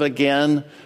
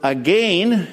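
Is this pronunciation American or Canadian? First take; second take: American; Canadian. First: It is said with an American pronunciation. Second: It is said with a Canadian pronunciation.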